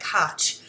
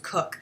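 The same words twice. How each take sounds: First: "Koch" said as it looks, not as "Cook"; the misleading reading of "Koch", unlike "cook"; spelling pronunciation. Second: "Cook" said like the kitchen word cook; "Cook", rhyming with "book"; correct name pronunciation. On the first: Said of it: "it sounds like Koch". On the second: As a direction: give the surname as "Cook", with the vowel of "book". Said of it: "but it's pronounced Cook". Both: Shown as a demonstration.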